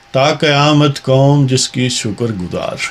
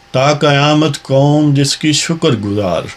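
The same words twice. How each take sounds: Both takes have the same delivery.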